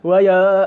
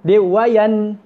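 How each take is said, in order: First: The n is hidden and barely pronounced. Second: The n is pronounced fully and clearly. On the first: The speaker calls it wrong. "Dia tak juga sembunyi di antara nun dengan dengan hamzah" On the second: The speaker calls it right. "jelas wayan"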